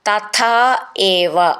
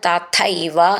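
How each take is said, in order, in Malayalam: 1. ഈ രണ്ട് വാക്കുകളും വേറെ വേറെയായാണ് പറയുന്നത്. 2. ഈ രണ്ട് വാക്കുകളും ചേർന്ന് ഒറ്റ വാക്കായി പറയുന്നു.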